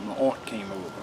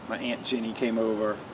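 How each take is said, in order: First: Aunt is said the way Black speakers say it. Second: Aunt is said the way white speakers say it.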